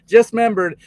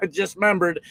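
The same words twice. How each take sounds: First: Higher and louder, stressing the sudden realization; a sudden louder second take; louder emphatic repeat. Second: Said in the usual way. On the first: Real, not acted. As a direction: blurt it out again, louder and higher.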